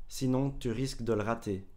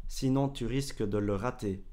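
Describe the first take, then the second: Both takes have the same delivery.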